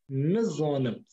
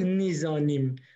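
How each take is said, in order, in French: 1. Les voyelles i sont réduites, presque effacées. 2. Les voyelles i sont claires, des sons ee pleins. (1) "ce i, c'est non existant. On peut l'ignorer complètement" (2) "si je regarde avec un œil français, je vais dire nizanim"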